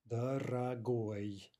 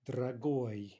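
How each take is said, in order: First: "дорогой" very slowly, syllable by syllable; slowed-down model. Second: Said in the usual way. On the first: Shown as a demonstration. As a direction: stretch out "дорогой" for learners, ending stressed. Teacher repeats word slowly, by syllable.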